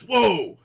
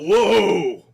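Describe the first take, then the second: First: Loud high whoa, falling; imitated startled yell. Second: Loud high retold whoa, falling off; imitated startled yell. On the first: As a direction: show how he yelled it, loud and high. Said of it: "like this". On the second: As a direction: shout whoa like someone jolted by a touch. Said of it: "I hear Jerry yell out".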